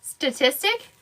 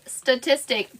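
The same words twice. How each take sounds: First: Statistic said carefully, rising, softer. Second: Statistic said without an accent, falling; plain statistic. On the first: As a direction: say Statistic syllable by syllable, with a rise. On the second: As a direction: say statistic plainly and drop at the end. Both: Shown as a demonstration. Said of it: "without an accent at all".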